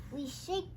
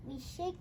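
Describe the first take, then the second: No difference in how they are said.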